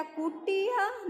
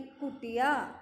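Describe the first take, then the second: First: कुटिया with a long, high "kut-tee-ya"; wrong stretched vowel. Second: कुटिया with a short टि; brief इ in कुटिया; short vowel. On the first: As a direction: say कुटिया slowly, dragging टी high. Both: Shown as a demonstration. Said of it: "नहीं, कुटिया".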